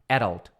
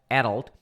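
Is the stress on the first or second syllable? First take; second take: first; first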